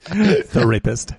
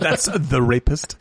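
First: "The rapist" drawn out slow and separated; slow split. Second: "the rapist" split slowly, laughing; that's the rapist. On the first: Friend repeats the pun, slowly drawing out the rapist. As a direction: drag out "The rapist" as two words. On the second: Friend laughs over the rapist/therapist joke, slowly splitting the words. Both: Shown as a demonstration. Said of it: "That's therapist".

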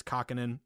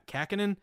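First: Said in the usual way. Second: Kahkonen with a flat Boston "a", as in "cat"; Boston accent. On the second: Real, not acted. Sports bettor trying out a goalie's name, in a Boston accent. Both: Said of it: "see, that's my Boston accent".

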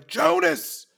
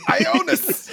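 First: Mild yell. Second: High-pitched call of "Ionis" breaking into laughter; acted yell. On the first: Acted. Player calls to an ally across the battlefield, mild yell. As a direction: call out "Jonas" as a short yell. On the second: Player corrects the ally's name he is calling, high yell. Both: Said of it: "I'm gonna yell".

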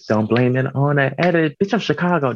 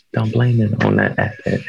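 First: A touch of a stage delivery on "Don't blame it on that edit."; performed catchphrase. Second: Said in the usual way. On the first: Shown as a demonstration. A drag queen tries out a new catchphrase for her show, lightly performed. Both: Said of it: "I might have to perform that".

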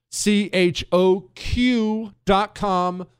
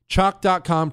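First: "C H O Q dot com" spelled letter by letter, slow and high; spelled out slowly. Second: Said in the usual way. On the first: Shown as a demonstration. Host spelling the site for listeners, slow and deliberate. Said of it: "spelling out the website slowly". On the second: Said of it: "repeats the site plainly".

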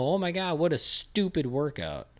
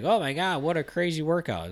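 First: High-pitched exasperated parody of the gushing; mock-horrified disbelief. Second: High-pitched gushing, imitating impressed fans; mock amazement. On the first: Trainer answering fans of a crazy workout clip, exasperated disbelief. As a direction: start high, drag out the scornful verdict. His own retort to the gushing. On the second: Trainer imitating everyone gushing over an Instagram workout clip, mock amazed. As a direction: gush it in a higher mock-awed voice.

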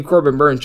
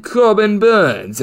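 First: Said in the usual way. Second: Drawn-out, higher English accent on the name. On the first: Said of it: "should be said in an English accent". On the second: Shown as a demonstration. Betting analyst jokingly says pitcher's name in English accent. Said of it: "as I use my old English accent".

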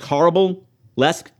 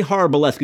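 First: "horrible-lesque", horror burlesque run together as horrible; slurred pronunciation. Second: Said in the usual way. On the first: Shown as a demonstration. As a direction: blend the words into "horrible-lesque". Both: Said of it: "it sounds like horrible-lesque".

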